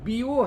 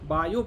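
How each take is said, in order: First: The first vowel is pronounced 'ee', like 'bee'. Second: The first vowel is pronounced 'ai', like 'bye'. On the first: This is the original root pronunciation. The speaker calls it right. "उसका मूल उच्चारण देखिए, बी ओ है" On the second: This is the usual modern reading. The speaker calls it wrong. "हम बायो पढ़ते हैं"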